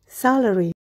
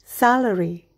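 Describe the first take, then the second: No difference in how they are said.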